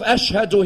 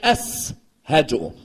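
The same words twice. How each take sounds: First: It is said with an 'sh' sound. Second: It is said with an 's' sound. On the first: "instead of" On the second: "Bilal used to say seen"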